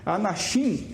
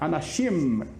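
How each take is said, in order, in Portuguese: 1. O final é uma vogal nasal sem os lábios fechados. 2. O final é um M pleno com os lábios fechados. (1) "aqui não é Anashim" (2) "o M se diz como M"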